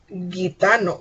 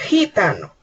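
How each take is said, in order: First: It begins with a hard g sound. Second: It begins with a rough j sound. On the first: The speaker calls it wrong. "no decimos gitano" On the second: The speaker calls it right. "utilizamos el fonema de la J"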